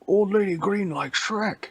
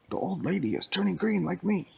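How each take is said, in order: First: High broken-English monster voice; caveman talk. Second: Full sentence in a higher Shrek voice; proper Shrek talk. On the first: Shrek wrongly voiced in broken caveman talk, high. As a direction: talk like a dumb brute. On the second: Shrek corrected to full sentences, higher voice. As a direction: speak in a whole sentence. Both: Acted. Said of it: "Shrek doesn't talk like that".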